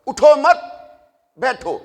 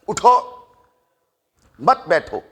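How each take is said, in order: First: There is a pause after the second word. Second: There is a pause after the first word. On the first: Do not get up, stay seated. "अब वक़फ़ बदलने लगा हूं" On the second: Stand up and do not sit. "उठो वक़फ़ कर दिया"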